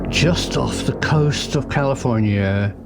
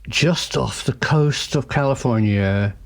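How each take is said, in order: Both takes have the same delivery.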